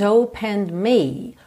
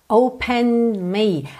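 Both takes have the same delivery.

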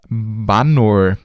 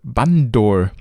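First: The word is said without a d sound. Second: The word is said with a d sound. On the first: The speaker calls it right. "auf Bengalisch heißt Affe Banor" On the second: The speaker calls it wrong. "das heißt Bandor, also mit D geschrieben"

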